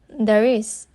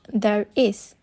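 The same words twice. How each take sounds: First: The r runs into the next word. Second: The two words are said separately. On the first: "the last sound of the first word, which is r, is combined with the first sound of the next word" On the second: "instead of"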